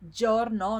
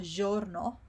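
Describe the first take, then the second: First: Giorno with a hard j, dzh; correct giorno. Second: Giorno with a soft zh; wrong soft giorno. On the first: Teacher gives the right way, hard-j giorno. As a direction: start giorno with a firm d onset. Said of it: "So it's giorno". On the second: Teacher shows the mistake, soft mispronounced giorno. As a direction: say giorno without the d onset, zhorno. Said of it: "not giorno". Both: Shown as a demonstration.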